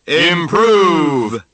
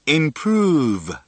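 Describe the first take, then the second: First: The word is yelled loudly. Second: The word is said at a normal volume. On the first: "Let's yell together" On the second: "Step two. Repeating"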